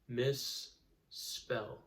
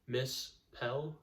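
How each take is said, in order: First: The middle s sound is long and doubled. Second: The middle s sound is short and single. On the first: The speaker calls it right. "our consonants are broken right in the middle of that doubled sound" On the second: The speaker calls it wrong. "we don't break it up like this"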